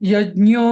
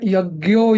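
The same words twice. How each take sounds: First: The ज्ञ cluster is not said the North Indian way. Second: The ज्ञ cluster is said the North Indian way. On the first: The speaker calls it right. "असं म्हणायला पाहिजे" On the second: The speaker calls it wrong. "जे उत्तर north Indian लोक म्हणतात, ते एकदम चुकीचं आहे"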